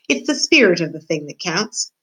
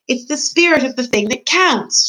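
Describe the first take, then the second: First: Said in the usual way. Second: Higher, louder repeat so she'll hear; raised-voice repetition, spelled out clearly; shouted. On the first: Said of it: "she said to Meg". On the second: Acted. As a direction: shout each word to someone hard of hearing. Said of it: "shouted P".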